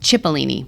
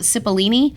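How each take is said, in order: First: The name begins with a 'ch' sound. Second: The name begins with an 's' sound. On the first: The speaker calls it right. "You pronounce this C H" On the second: The speaker calls it wrong. "I called it"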